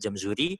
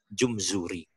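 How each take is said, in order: First: The first vowel is an open a sound. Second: The first vowel is a rounded u sound. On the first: "dibaca jamzuri" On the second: "atau boleh juga dibaca jumzuri"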